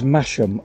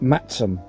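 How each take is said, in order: First: The name is pronounced just as it is spelled. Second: The name is pronounced in the local way. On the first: "The town phonetically is Masham" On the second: "although locals pronounce it Matsum"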